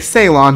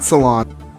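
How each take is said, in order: First: The name sounds like the island Ceylon. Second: The name sounds like the word salon. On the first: The speaker calls it right. "we're gonna say Ceylon" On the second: The speaker calls it wrong. "not Salon"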